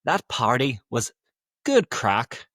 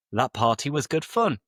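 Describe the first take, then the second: First: Punchy Belfast accent; Northern Irish accent. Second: Said in the usual way. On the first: Shown as a demonstration. Teacher showing slang about a party, Northern Irish accent. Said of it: "trying again to do a Northern Irish". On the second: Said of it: "you're saying that it was good fun".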